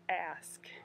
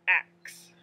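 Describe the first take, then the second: First: The s sound comes before the k. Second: The k sound comes before the s. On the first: The speaker calls it right. "the S K sound is ask" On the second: The speaker calls it wrong. "It's not ax"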